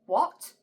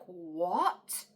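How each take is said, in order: First: Louder, incredulous "What?" with a rising end; shocked what. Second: A mild retold gasp of disbelief, "What?" rising; imitating the doctor's stunned "What?", kept light; shocked what. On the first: Retold or imitated. Doctor reacting to the pharmacist story, loud incredulous "What?". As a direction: replay the doctor's real outburst of disbelief. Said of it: "She actually went". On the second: Doctor hearing about the pharmacist, mildly shocked "What?". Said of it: "she was like".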